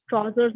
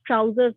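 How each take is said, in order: First: ट्राउजर्स said with a rounded "o": tro-zers; ट्राउजर्स as tro-zers, an open rounded vowel in place of "ow"; ट्राउजर्स with a rounded "aw" vowel: traw-zers; accented pronunciation. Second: ट्राउजर्स said the standard way, with an "ow" sound: trow-zers; ट्राउजर्स spoken cleanly, "ow" as in "how"; ट्राउजर्स with an "ow" diphthong, like trow-zers; standard pronunciation. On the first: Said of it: "तो ये accent हो जाता है". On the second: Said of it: "जैसे". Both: Shown as a demonstration.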